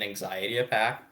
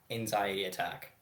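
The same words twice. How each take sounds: First: "anxiety attack" fumbled, with a P for the T in attack; tongue-tied slip. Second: Said in the usual way. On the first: Real, not acted. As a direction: stumble on "attack" so it sounds like "apack". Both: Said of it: "God, I can't fucking talk".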